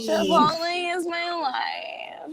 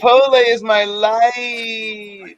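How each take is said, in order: First: Hammed-up proclamation. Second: Slow, savoring every word; drawn-out savoring. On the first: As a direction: proclaim it like a creed. Echoing the line bigger. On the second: Acted. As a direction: drag it out like a devotion. Savoring a favorite food.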